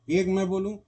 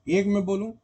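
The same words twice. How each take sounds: No difference in how they are said.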